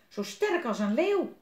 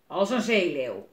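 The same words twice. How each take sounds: First: Put-on high, loud boyish exclamation; admiring little boy. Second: Loud growl of a fierce sailor; growling pirate. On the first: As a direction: marvel at him in a high child voice. Frank admires Willem's strength. (bewonderend jongetje, hoog en luid) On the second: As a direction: growl it gruffly and loudly. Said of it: "gromt woeste Willem". (luid grommende zeerover) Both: A narrator's reading.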